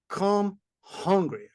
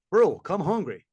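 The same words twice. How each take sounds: First: "Come hungry" drawn out slowly, each word weighted; emphatic slow repeat. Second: Said in the usual way. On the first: Real, not acted. Urging listeners about the big burger, "Come hungry" slow and weighty. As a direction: lean hard on "Come hungry", stretched and slow.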